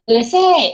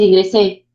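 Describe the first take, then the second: First: It is said in a happy, excited way. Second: It is said flatly, without any joy. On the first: The speaker is glad to have gotten in. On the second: The speaker is not glad about getting in.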